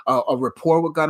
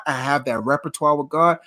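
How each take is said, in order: First: "rapport" said as ra-POR, the fix; corrected word. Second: "repertoire" said in full as re-per-twa, the slip; the slip "repertoire" before the fix; misspoken word. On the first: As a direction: set it right with "rapport". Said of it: "not repertoire, but because I have that rapport". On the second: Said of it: "not repertoire, but". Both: Real, not acted.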